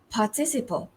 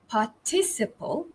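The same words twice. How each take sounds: First: American pronunciation, with the R said clearly. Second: British pronunciation, stressed on the second syllable. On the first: "in American English, excuse me, it's participle" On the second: "In British English, it's the stress falls on the second syllable"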